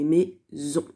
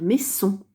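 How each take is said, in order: First: The middle consonant is a buzzing z sound. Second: The middle consonant is a hissing s sound. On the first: The speaker calls it right. "mais maison" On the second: The speaker calls it wrong. "on ne va pas dire maison"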